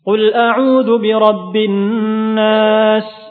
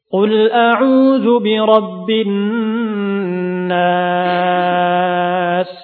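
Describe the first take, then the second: First: The recitation is at a moderate, relaxed pace. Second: The recitation is slow and calm with long vowels. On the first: It sits between the slow and the fast levels. "Adapun tadwir tengah-tengah di antara tahqiq dan juga hadr" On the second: It suits teaching and learning. "Adapun tahqiq dilambatkan"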